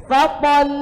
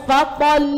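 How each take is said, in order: The two takes are said the same way.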